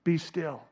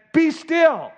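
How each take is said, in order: First: Soft, low comforting words; mild, hushed tenderness; gentle and quiet. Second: Loud, high commanding rebuke; forceful raised-voice command. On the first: Shown as a demonstration. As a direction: say it softly, like to a lover. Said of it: "This is not some gentle, quiet whisper". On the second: Acted. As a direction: order the storm to stop. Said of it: "It was a rebuke before it was a comfort".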